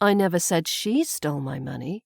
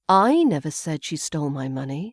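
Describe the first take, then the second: First: The stress falls on the word she. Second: The stress falls on the word I. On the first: Someone else perhaps stole it. "I've put the emphasis now on the she" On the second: Someone else may have said it. "we put the emphasis on I"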